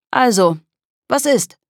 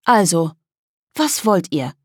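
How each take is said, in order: First: Pushy, rising much higher on the question; impatient. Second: Casual. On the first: Kolja pushes the girls for an answer, impatiently. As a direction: press them, fed up with waiting. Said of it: "fragte Kolja ungeduldig". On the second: Girl asks the boys what they want, casually. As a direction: toss it off lightly, unbothered. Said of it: "fragte lässig". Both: Acted.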